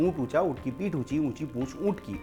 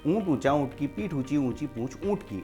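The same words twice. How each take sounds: No difference in how they are said.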